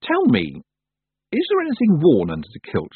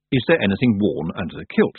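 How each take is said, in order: First: Higher, curious direct question; daring question. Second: Understated wondering, in narrator's register; musing. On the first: Tiffany finally dares ask the Feagles, curious and higher-pitched. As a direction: ask carefully, with lifted pitch. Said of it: "she'd never quite dared to ask". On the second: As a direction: muse on it as an idle thought. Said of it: "looked up above the everyday chores and wondered". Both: A narrator's reading.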